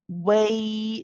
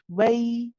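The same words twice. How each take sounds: First: The waw sound is heavy and over-exaggerated. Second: The waw sound is light and not exaggerated. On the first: The speaker calls it wrong. "We don't say way. It's not over exaggerated" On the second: The speaker calls it right. "It's just way"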